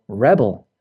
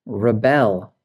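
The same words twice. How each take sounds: First: REB-el, with the stress on REB; first-syllable stress. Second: Re-BEL, with the stress on BEL; weak first syllable in rebel, strong second. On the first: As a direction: say rebel as the noun, REB-ul. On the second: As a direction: say rebel as the verb, ruh-BEL. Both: Shown as a demonstration. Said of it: "it can change the pronunciation".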